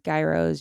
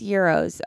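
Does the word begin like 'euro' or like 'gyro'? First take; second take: like gyro; like euro. First: The word begins like the word 'gyro'. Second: The word begins like the word 'euro'. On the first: This is how it is said in some other places. "I know someplace it's gyros" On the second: This is how it is said in Detroit. "in Detroit it's euros"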